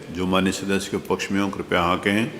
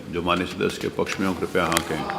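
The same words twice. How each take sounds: Both takes have the same delivery.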